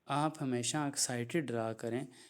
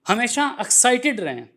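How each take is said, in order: First: It is said in a flat, unexcited tone. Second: It is said in an excited, lively tone.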